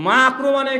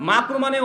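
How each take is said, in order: No difference in how they are said.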